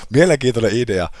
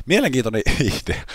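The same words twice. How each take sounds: First: "Mielenkiintoinen idea" in a louder, higher put-on voice; a hint of a mock pompous critic. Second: Chuckling through the words, higher; amused at the game idea; "Mielenkiintoinen" said with a laugh breaking in. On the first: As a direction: parody his own remark in a silly voice. Repeats remark in put-on voice. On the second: Real, not acted.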